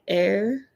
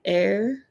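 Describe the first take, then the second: First: The vowel sounds like the word 'air'. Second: The vowel sounds like the word 'air'.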